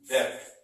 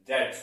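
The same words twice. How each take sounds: First: "डेप्थ" with an audible stop before the final T; mispronounced debt. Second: "डेट" with no B, straight from vowel to T; silent B. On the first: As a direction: sound the silent B in "डेप्थ", close to a P. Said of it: "But ये डेप्थ नहीं". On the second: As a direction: say "डेट" like "det", dropping the B. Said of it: "but इसको पढ़ते हैं". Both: Shown as a demonstration.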